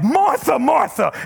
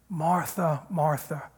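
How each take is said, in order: First: It is said angrily, like a blow-up. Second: It is said gently and tenderly.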